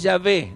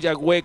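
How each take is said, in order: First: The middle consonant is a V sound. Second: The middle consonant is a W sound. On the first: The speaker calls it right. "es Yahvé" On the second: The speaker calls it wrong. "no Yahweh como se dice en la pronunciación sajona"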